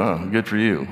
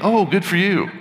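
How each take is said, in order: First: It is said in a sarcastic tone. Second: It is said in a sincere tone. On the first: The speaker is not really happy for the other person. "So it can be sarcastic" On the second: The speaker is genuinely happy for the other person. "it's not a"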